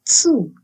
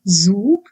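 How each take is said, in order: First: The word begins with a ts sound. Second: The word begins with a buzzing z sound. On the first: The speaker calls it right. "Z is pronounced as ts" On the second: The speaker calls it wrong. "it's not Zug"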